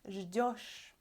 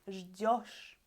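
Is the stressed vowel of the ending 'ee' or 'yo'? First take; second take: yo; yo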